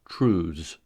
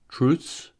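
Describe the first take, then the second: First: The ending has a voiced th and z. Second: The ending has a voiceless th and s. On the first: "the voiced" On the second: "the voiceless consonant cluster ths"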